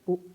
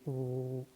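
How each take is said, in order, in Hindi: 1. स्वर झटके से काटा जाता है। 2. स्वर को लंबा खींचा जाता है। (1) "अब ये झटका होगा" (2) "ये खींचा जा रहा है"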